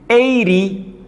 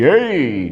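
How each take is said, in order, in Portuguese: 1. A consoante do meio é um R fraco, tipo batida. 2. A consoante do meio é totalmente omitida. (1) "Aquele som de R fraquinho" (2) "se eu não pronunciar o T"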